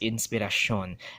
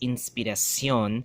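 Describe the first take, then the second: First: The ending is one syllable, like 'shon'. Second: The ending is two syllables, like 'see-on'. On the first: This reflects English influence. "they will pronounce it as inspiración. That shon" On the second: This is the original pronunciation. "instead of say, pronouncing it as inspiración"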